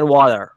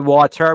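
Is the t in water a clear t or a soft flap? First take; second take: soft flap; clear t. First: The t in the middle is a soft flap. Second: The t in the middle is a clear t. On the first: "سعیش بر این بود که مثلا تی ها رو امریکن تی بگه" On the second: "به جای واتر"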